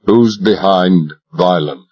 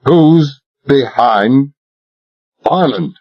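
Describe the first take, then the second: First: Cold demand. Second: Slow, hard, every word weighed; implacable. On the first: Cold interrogation. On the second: Talbot presses Royal a second time, implacable. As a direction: repeat it without mercy. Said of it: "I repeated implacably". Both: Acted.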